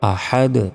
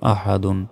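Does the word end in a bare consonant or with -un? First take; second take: bare consonant; -un. First: The word ends on a bare final consonant. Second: The word ends with an added -un syllable. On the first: The reader stops at the end of the verse. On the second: The reading continues without stopping.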